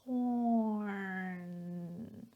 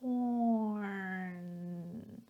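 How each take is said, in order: First: The R sound is clearly pronounced. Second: The same.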